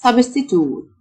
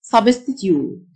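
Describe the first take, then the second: First: American "substitute", ending in a plain toot; American-style substitute, "-toot"; American pronunciation. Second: British "substitute", ending in a tyoot glide; British-style substitute, "-tyoot"; British pronunciation. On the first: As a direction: say substitute the American way, no y-sound before the final oot. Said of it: "النطق الأمريكان". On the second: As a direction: say substitute the British way, with a y-sound before the final oot. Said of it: "وده النطق البريتش". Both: Shown as a demonstration.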